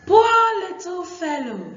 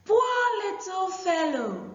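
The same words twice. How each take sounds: First: Put-on high, loud, tender girl's voice. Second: Put-on high shouted girl's voice. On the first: Aku pities the wet dog in a high girl's voice. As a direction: pity the dog in a high little-girl voice. Girl voiced in read story. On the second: Shown as a demonstration. Aku calls out in pity to the dog, high and shouted. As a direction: call out in pity, high like a girl. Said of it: "I take this part again".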